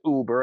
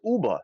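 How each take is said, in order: First: The word is said in a plain accent. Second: The word is said in a Staten Island accent. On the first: "instead of saying it as Uber" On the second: "as Uba"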